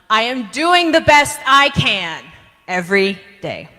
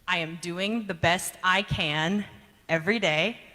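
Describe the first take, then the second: First: It is said with high energy. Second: It is said with medium energy.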